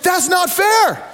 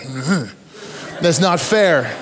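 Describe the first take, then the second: First: High, slow shouted outrage; indignant shout. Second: Half-laughing "That's not fair." at normal pitch; a preacher still grumbling decades later; wry grumble. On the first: Retold or imitated. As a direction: yell "That's not fair." like a cheated team. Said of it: "And the Americans like". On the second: Real, not acted. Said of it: "I'm kinda going".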